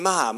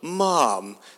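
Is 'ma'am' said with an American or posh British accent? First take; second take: American; posh British. First: It is said with an American accent. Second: It is said with a posh British accent.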